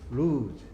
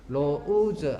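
First: The vowel sounds like 'oo'. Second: The vowel sounds like 'oh'. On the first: The speaker calls it right. "옆에 또 살짝 적어요. 루즈" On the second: The speaker calls it wrong. "로우즈 아니야요"

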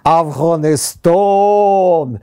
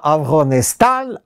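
First: The last vowel is a long 'o' sound. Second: The last vowel is a short 'a' sound. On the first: The speaker calls it right. "То есть такой длинный звук" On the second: The speaker calls it wrong. "Я неправильно произносил слово «Афганистан»"

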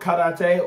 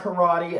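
First: It is said with a non-American pronunciation. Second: It is said with an American pronunciation.

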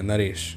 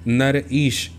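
First: It is said as one joined word. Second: It is said as two separate parts. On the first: "एकदम से बोल दिया" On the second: "तो कैसा लगेगा?"

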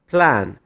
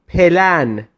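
First: The p and l are said together without a vowel. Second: A vowel is inserted between p and l. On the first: The speaker calls it right. "تلفظ درست پلان پلان" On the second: The speaker calls it wrong. "پلن تلفظ اشتباه"

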